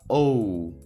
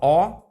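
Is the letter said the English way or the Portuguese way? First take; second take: English; Portuguese. First: It is a gliding English oh vowel. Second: It is a plain, pure Portuguese o vowel. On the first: "No inglês a gente fala O" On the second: "No português a gente fala O"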